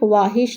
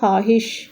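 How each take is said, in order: First: A 'w' sound is pronounced after the 'kh'. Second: No 'w' sound follows the 'kh'. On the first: The speaker calls it wrong. "वाव नहीं पढ़ेंगे, वाहिश नहीं होगा" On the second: The speaker calls it right. "पढ़ने में हम वाव को silent करेंगे"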